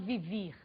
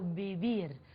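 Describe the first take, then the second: First: The first consonant is a buzzing lip-teeth v. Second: The first consonant sounds close to b. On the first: The speaker calls it wrong. "eu não falo vivir" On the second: The speaker calls it right. "o V tem o som de R, muito próximo ao B do português"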